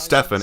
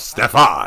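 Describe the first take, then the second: First: The name is said in a plain, flat way. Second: The name is said with dramatic, acted inflection. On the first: The speaker calls it wrong. "it's not Stefan" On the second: The speaker calls it right. "you add a little bit of inflection, a little bit of acting to it"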